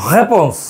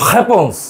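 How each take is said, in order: The two takes are said the same way.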